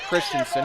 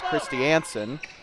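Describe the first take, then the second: First: The name is said as Christensen. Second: The name is said as Christiansen. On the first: The speaker calls it wrong. "It's not Christensen" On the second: The speaker calls it right. "it's Christiansen"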